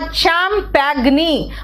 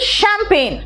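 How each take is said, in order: First: It starts with ch and sounds every letter. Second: It starts with sh and ends in plain n. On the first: It is said as spelled, to remember the spelling. The speaker calls it wrong. "मैंने कहा चैंपेग्नी" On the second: It is the real English pronunciation. The speaker calls it right. "But it is शैंपेन"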